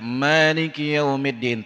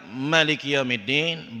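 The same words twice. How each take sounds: First: The first vowel of Maliki is long. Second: The first vowel of Maliki is short. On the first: "tambah satu alif" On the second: "membuang satu alif"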